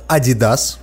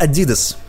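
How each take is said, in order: First: It is said with a British pronunciation. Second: It is said with an American pronunciation.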